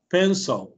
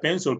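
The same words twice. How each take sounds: First: The second syllable has a very short 'e'. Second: The second syllable has an 'o' vowel. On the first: The speaker calls it right. "es como una E bien corta" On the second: The speaker calls it wrong. "yo la pronunciaría pencil con O"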